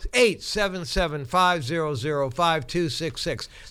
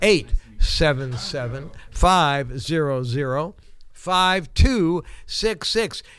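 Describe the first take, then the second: First: The number is said at a normal, quicker pace. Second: The number is said slowly and deliberately.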